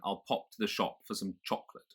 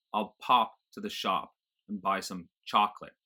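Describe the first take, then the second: First: Said in the usual way. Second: American open AH in pop, shop, chocolate; General American accent. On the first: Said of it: "rather than". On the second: Shown as a demonstration. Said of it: "Nothing like that in general American".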